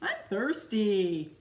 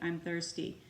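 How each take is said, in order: First: It is said with upset, strong feeling. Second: It is said flatly, without feeling. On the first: The speaker calls it right. "if Leon is upset, like when he was thirsty" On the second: The speaker calls it wrong. "rather than saying"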